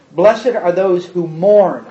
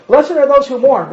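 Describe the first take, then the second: First: Slow, low and deliberate, each word weighed; slow reading. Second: "those" punched, higher and brighter; stress on those. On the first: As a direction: read "mourn" slowly, letting it fall. First slow reading of the verse. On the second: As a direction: hit the word "those" then fall on "mourn". Second reading stressing "those. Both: Shown as a demonstration.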